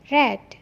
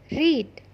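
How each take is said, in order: First: The vowel is short, like 'red'. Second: The vowel is long, like 'reed'. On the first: It is the past participle form. "Cara bacanya seperti nama warna, red" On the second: It is the present form meaning to read. "Read yang artinya membaca"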